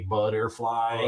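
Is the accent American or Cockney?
American. It is said in an American accent. "here we say butterfly"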